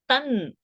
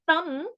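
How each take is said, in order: First: The word ends in an n sound. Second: The word ends in an m sound. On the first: The speaker calls it right. "you are going to say nakara" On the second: The speaker calls it wrong. "Instead of saying tam, Anuswara's makara"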